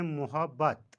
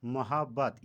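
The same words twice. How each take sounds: First: मोहब्बत said mu-habbat; मोहब्बत as muhabbat; common mispronunciation. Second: मोहब्बत said ma-habbat; मोहब्बत as mahabbat; correct pronunciation. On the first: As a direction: say मोहब्बत with u or o after m. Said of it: "मोहब्बत गलत तलफ़ुज़". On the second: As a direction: say मोहब्बत with short a after m. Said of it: "और सही तलफ़ुज़". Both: Shown as a demonstration.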